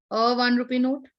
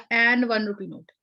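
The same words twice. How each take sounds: First: Said in the usual way. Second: Slow, deliberate "an" before "one rupee note"; wrong article said slowly. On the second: Shown as a demonstration. Teacher testing the class with the wrong form, slow and deliberate. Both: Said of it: "पर ये गलत हो जाएगा".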